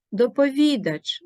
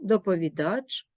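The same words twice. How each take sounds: First: Доповідач with a firm stress and a falling close; first take of доповідач, stress punched; доповідач called out clearly stressed. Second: Доповідач repeated with the stress moved and a rising end; second take of доповідач, contrasting stress; доповідач said again, stress shifted. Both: Shown as a demonstration. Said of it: "Вимовляйте правильно".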